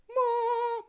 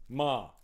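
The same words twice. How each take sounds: First: Playfully stretched "Ma"; drawn-out title. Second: Said in the usual way. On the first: Pretend. Streamer repeating a film title to viewers, playfully drawn out. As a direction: hold "Ma" out in a put-on voice.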